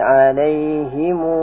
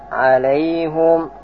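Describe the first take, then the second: First: The word ends with a longer -himu. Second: The word ends with a short -hum. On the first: "baca lagi" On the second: "kemudian baca alaihum"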